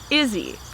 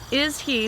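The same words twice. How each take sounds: First: The two words merge, h dropped. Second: The two words are said separately, h kept.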